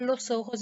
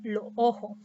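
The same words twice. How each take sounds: First: Said in the usual way. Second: Lo ojo with the final s of each word dropped or breathed out; coastal dropped S. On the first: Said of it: "en lugar de decir los ojos". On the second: Shown as a demonstration. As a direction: swallow the s at the end of lo ojo. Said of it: "Aspiración de la S al final de palabra".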